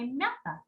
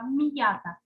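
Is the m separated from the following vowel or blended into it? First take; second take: blended; separated. First: The m blends softly into the following vowel. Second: The m is separated from the following vowel. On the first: The speaker calls it wrong. "Не м'ята" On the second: The speaker calls it right. "Чуємо, як розділяється"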